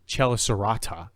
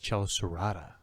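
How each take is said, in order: First: The T is a crisp, clear T. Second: The T is a quick flap like D. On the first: The speaker calls it wrong. "it's not Chelicerata" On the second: The speaker calls it right. "it's like a a flap. It's like a D"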